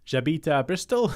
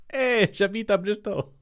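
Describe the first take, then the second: First: Said in the usual way. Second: Higher, hammed-up French accent with a loud Hey; cartoon French accent, higher and louder; put-on French accent. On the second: Shown as a demonstration. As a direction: overdo a jokey French accent. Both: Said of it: "I don't know what that accent was meant to be".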